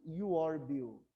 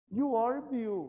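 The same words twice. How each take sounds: First: Slow, deliberate statement; slow model sentence. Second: Loud, high teacher model; model sentence. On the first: Teacher repeats the statement slowly for students to copy. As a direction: spell it out slowly for the class. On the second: Teacher models the statement to students, loud and high. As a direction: announce the statement to the class. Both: Shown as a demonstration. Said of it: "O que que eu tô falando aqui?".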